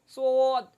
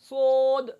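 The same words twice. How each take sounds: First: The lips are rounded, giving an o sound. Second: The same.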